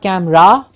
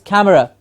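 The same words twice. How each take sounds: First: The last syllable has a full 'ra' vowel. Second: The last syllable ends in a short weak schwa. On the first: The speaker calls it wrong. "it's not camera, it's not ra at the end" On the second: The speaker calls it right. "it's camera. See, the the schwa"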